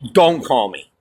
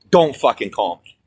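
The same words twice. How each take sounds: First: Said in the usual way. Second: Cold final warning to the caller; stressed repeat. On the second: Real, not acted.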